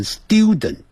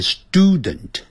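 First: "student" with a y-glide, "styoo-dent"; British-style "student", glide after the t; non-American "student". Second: "student" with a plain "stoo" first syllable; American English "student", no y-glide after the t. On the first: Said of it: "在美式英语不会念成student". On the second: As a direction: say "student" slowly as STOO-dent. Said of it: "要念student". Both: Shown as a demonstration.

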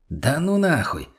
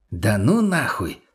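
First: Higher, drawn-out "no way"; wary refusal. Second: Stunned disbelief. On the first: Acted. Friend refusing to check the cellar, wary and high. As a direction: back away, stretching the middle word upward. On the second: A narrator's reading. Friend seeing what is in the cellar, slowly astonished. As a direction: draw it out in amazed disbelief. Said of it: "поднял он на нас удивлённый взгляд".

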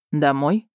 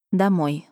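First: Said in the usual way. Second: DOMOJ as a falling, sighed answer; sighed agreement. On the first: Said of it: "предложил герцог". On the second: A narrator's reading. Heroine accepts going home with a sigh, sighing. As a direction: let "Домой" sink in mild resignation. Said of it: "вздохнула я".

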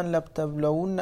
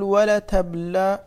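First: Said in the usual way. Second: "ولتبلون" stretched slowly, a little louder; slow demonstration. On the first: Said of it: "وأيضًا لتبلون أيضًا هكذا". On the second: Shown as a demonstration. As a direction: announce "ولتبلون" slowly and firmly. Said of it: "طيب، يقول".

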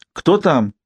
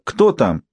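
First: Sharp high call through the door. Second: Said in the usual way. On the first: A narrator's reading. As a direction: call out who's there. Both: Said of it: "крикнула госпожа Шлак".

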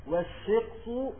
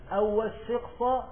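First: والشقص said slowly as "wash-shiqsu"; nominative ending. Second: والشقص said "wash-shiqsa"; accusative ending. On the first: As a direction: draw out والشقص and end it on "u". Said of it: "يبقى استئنافية". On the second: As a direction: end والشقص on an open "a". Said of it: "يبقى الواو عاطفة". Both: Shown as a demonstration.

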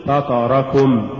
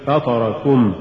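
First: Slow فطركم as one unbroken word; correctly joined word. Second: فطركم broken as فطر + كم; wrongly split word. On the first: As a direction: keep كم attached inside فطركم. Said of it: "قل". (نطق «فطركم» كلمة واحدة) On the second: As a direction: set كم apart at the end of فطركم. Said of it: "ولا تقل". (فصل «كم» في «فطركم») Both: Shown as a demonstration.

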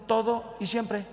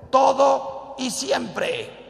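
First: Said in the usual way. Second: "todo y siempre" lento, alto y más fuerte, cada palabra marcada; slow emphatic stress. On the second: Acted. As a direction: hammer "todo y siempre" slowly as the sermon's point. El sacerdote recalca la frase clave. ("todo y siempre" lento y enfático, muy marcado)

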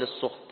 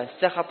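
First: السخط said as "as-sukht", u after the s; damma on seen. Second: السخط said as "as-sakhat", a after the s; fatha on seen. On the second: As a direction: say السخط with open a vowels, sakhat. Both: Shown as a demonstration. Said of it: "بفتح السين وضمها".

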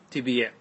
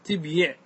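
First: تبيع said tibīʕ, b running into a long i; form after vowel transfer. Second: تبيع said tib-yiʕ, closed b and audible y; underlying form. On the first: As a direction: say تبيع as ti-bīʕ without a y glide. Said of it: "صارت تبيع بالنقل". (تبيع بكسر الباء بعد النقل) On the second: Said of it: "في الأصل". (تبيع على الأصل بسكون الباء وكسر الياء) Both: Shown as a demonstration.

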